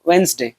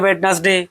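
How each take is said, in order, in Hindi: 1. बीच का d silent है, इसे 'wenz-day' जैसा बोला जाता है। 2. बीच का d बोला जाता है, स्पेलिंग के अनुसार। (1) "इसका सही प्रोनाउंसिएशन है" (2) "हम लोग पढ़ते हैं"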